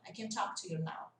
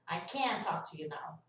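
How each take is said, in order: First: "can" reduced to a quick "kn", stress on "talk"; low, soft line skimming over "can"; short affirmative "can". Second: "can't" long and stressed, T unreleased; stretched negative "can't". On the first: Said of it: "Percebem a diferença?". ("can" rápido e fraco, ênfase em "talk") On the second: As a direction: hold the vowel of "can't", drop its T. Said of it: "Ele fica mais estendido". ("can't" alongado, com o T mudo) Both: Shown as a demonstration.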